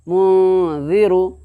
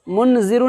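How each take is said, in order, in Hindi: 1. n नाक की गुनगुनाहट में छुपा हुआ है। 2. n पूरा और साफ़ बोला जाता है। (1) "आवाज़ को छुपा करके" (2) "मुन ज़ीरू नहीं बोलोगे"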